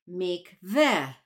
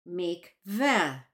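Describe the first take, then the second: The two takes are said the same way.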